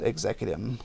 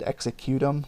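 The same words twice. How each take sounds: First: The start sounds like the word 'executive'. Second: The start sounds like the word 'executing'. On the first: "like uh, executive" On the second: "like you're executing them"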